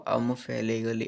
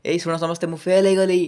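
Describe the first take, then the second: First: Low, subdued falling tone. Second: High, loud mock announcement; mock rising tone. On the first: Acted. Failed student admitting the exam result, dejected falling tone. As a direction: sink softly down, like admitting failure. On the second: Teacher mocking a failed student announcing failure, high excited rising tone. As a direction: proclaim it to everyone, absurdly upbeat. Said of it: "ଏମିତି କହିବ?".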